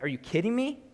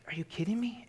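First: High, rising disbelief; mock outraged God, higher; incredulous. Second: Breathy incredulous whisper; hushed mock disbelief at the people. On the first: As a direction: voice God's exasperation with a lifted pitch. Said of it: "He's like". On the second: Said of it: "It's like".

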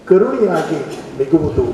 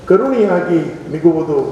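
Both takes have the same delivery.

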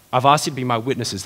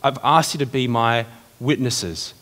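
First: Said in the usual way. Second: Slow, weighty first reading; slow emphatic. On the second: Shown as a demonstration. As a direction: lean on every word, slowly.

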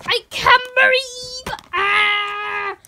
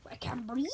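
First: Mock gasping. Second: Fading mock gasp. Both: Plush being squeezed.

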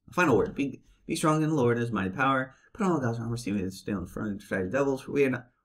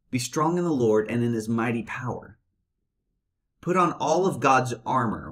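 First: Monotone reading voice; bad acting. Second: Thoughtful reading. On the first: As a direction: read it flat and bored. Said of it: "they read it in a monotone voice". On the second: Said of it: "No, stop. Hold on for a minute". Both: Shown as a demonstration.

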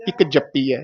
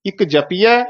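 First: ਜਪੀਐ with doubled p and falling end; tight. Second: ਜਪੀਐ with single p and rising end; light, rising ਇੱਕ ਜਪੀਐ, p undoubled; soft. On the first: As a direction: press the p in ਇੱਕ ਜਪੀਐ, falling. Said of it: "ਇੱਕ ਜਪੀਐ ਕੱਸ ਕੇ". (ਇੱਕ ਜਪੀਐ ਕੱਸ ਕੇ) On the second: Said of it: "ਇੱਕ ਜਪੀਐ ਪੋਲਾ". (ਇੱਕ ਜਪੀਐ ਪੋਲਾ) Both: Shown as a demonstration.

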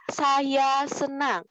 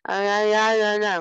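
First: "Saya senang" very slow and higher, each syllable distinct; clear articulation. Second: "Saya senang" mumbled into loose vowels, consonants lost; unclear articulation. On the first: Teacher repeats the model for pupils, clearly articulated "Saya senang". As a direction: stretch out and fully enunciate "Saya senang". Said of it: "Harus jelas". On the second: Teacher shows pupils what not to do, slurred unclear "Saya senang". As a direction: slur "Saya senang" until the words are unrecognisable. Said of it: "itu nggak boleh kayak gitu". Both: Shown as a demonstration.

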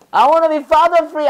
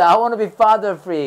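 First: Put-on high, slow childish plea; kid voice. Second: Said in the usual way. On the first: Teacher playing a child who wants a day free of father, pleading. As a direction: play a kid wishing dad away. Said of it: "아버지 없는 하루". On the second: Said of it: "아빠 없었으면 좋겠어요".

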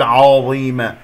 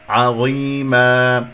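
First: عظيمة with a thick, o-coloured first vowel; wrong heavy ayn. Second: عظيما slow, thin ayn then heavy dha; correct light ayn. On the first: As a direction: round the opening of عظيمة. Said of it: "لا أقول". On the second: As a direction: recite عظيما with a light opening and long ee. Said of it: "مرققة". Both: Shown as a demonstration.

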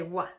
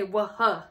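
First: "wah" as a single short w sound; just "wah", one beat; one simple sound. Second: "wah-huh" with an extra huh puffed after the w; "wah-huh", H sounded separately; wrong way, two sounds. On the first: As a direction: say "wah" with no huh after it. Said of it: "just say wah". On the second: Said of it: "so don't say wah-huh". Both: Shown as a demonstration.

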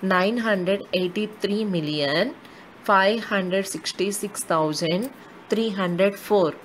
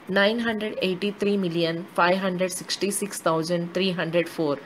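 First: Slow, with a pause after each period; a teacher repeating the number slowly, period by period. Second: Said in the usual way. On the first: Shown as a demonstration. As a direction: spell it out group by group. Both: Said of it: "I'll repeat the number name as per the periods".

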